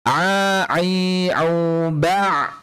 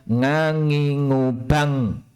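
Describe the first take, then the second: First: Each syllable starts from the middle of the throat. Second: Each syllable starts with a nasal ng sound. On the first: The speaker calls it right. "ainnya mohon untuk diusahakan muncul dari dari benar-benar dari tengah tenggorokan kita" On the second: The speaker calls it wrong. "kalau diganti eng jadinya ngangingubang"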